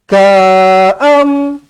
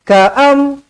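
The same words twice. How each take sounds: First: The first vowel is drawn out long. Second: The first vowel is kept short. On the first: The speaker calls it wrong. "Tak boleh, salah" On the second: The speaker calls it right. "pendek je"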